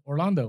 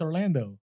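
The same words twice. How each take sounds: First: The name is said as people say it in California. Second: The name is said as people say it in Wisconsin. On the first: This is how people in California say the name. "when I was in Cal- in California, it's Orlando" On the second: This is how people in Wisconsin say the name. "When I'm in Wisconsin, it's Orlando"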